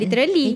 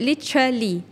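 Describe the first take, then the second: First: It is said with a Malay English accent. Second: It is said with a British English accent. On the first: "kalau kita orang Melayu kita sebut" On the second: "kalau British dia sebut"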